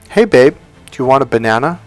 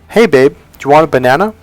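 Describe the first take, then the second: No difference in how they are said.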